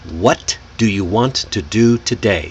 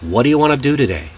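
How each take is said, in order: First: Every word is pronounced fully with emphasis. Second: The less important words are reduced and linked. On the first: "I put every emphasis on the words" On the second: "Reduce it naturally"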